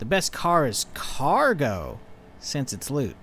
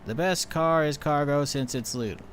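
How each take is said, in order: First: It is said with lively emphasis. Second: It is read flat, without emphasis. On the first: The joke comes across. The speaker calls it right. "if you say it" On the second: The joke does not come across. The speaker calls it wrong. "if you're saying the joke as text, I read"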